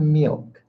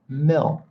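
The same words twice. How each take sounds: First: The vowel is a long 'ee' sound. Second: The vowel is a short 'i' sound. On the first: The speaker calls it wrong. "Most students pronounce it E, okay? It is not" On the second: The speaker calls it right. "It's milk"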